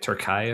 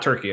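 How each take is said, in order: First: The name is said the local way, like Türkiye. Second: The name is said the usual English way. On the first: This is the country's own current name. The speaker calls it right. "I think it's like Turkey or something like that" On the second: This is the older name for the country. The speaker calls it wrong. "it's not Turkey anymore"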